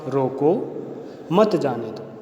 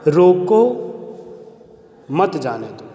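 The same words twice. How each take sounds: First: There is a pause after मत. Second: There is a pause after रोको.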